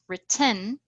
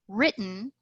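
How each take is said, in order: First: The stress falls in an unusual place. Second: The stress falls in its usual place. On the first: The speaker calls it wrong. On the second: The speaker calls it right.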